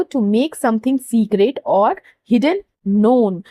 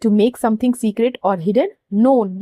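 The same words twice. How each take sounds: First: Slow, careful English definition; slow clear reading. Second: Very slow, word by word dictation. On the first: Teacher reading the definition to students, slow and careful. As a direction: read the definition out slowly for the class. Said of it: "English में बोले तो". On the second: Teacher dictating the definition for students to underline, very slow. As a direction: spell it out slowly so students can write. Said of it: "यहाँ पे underline". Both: Shown as a demonstration.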